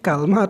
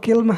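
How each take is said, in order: First: It starts with ka and has no vowel after l. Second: It starts with ki and has no vowel after l. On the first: "dipatahkan kafnya ... beserta sukun lam" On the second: "mengkasrahkan kafnya ... beserta sukun lam"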